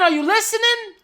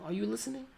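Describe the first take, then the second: First: It is said as a scream. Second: It is said at normal volume.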